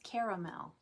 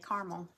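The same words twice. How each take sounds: First: The middle vowel is pronounced, three syllables. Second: The middle vowel is dropped, two syllables. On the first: "There's an A in the middle. It's caramel" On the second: "But I usually say caramel"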